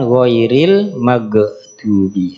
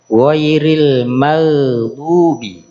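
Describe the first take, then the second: First: The gh is a hard g stop. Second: The gh is a soft throaty fricative. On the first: The speaker calls it wrong. "bukan ghairil maghdubi. ... suara ge-nya itu dihilangkan" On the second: The speaker calls it right. "Sama di surat Al-Fatihah"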